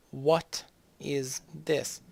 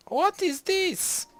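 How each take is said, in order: First: Drawn-out question. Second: Shrieked high, loud and slow, mock shock; hammed-up high-pitched disbelief; mock outrage. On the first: Pretend. Slow repeat of question. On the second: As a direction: squeal it like a scandalised noble. Mock outrage at rival civ.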